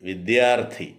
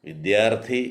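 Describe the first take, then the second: No difference in how they are said.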